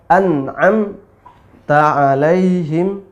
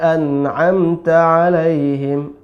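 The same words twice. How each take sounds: First: There is a break between an'am and ta. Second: An'amta is said straight through without a break. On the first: The word reads as 'cattle' instead of 'gave favor'. The speaker calls it wrong. "kalau dipisah" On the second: The word keeps its meaning of giving favor. The speaker calls it right. "an'amta langsung"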